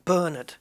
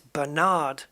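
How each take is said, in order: First: The stress is on the first syllable. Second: The stress is on the second syllable. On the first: This is how the name is said in the UK. "the emphasis is on the first syllable" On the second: This is how the name is said in America. "in America, it's Bernard, where the it's it's on the second syllable"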